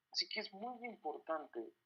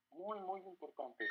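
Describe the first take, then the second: First: Said in the usual way. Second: Repeated muy, muy pressed slowly with falling tune; slow emphatic muy, muy importante; stress on muy. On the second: Real, not acted. Preacher urges the congregation, slow stress on muy.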